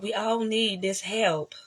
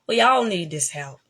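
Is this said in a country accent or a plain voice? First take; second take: plain; country. First: It is said in the speaker's ordinary voice. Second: It is said in a put-on country accent.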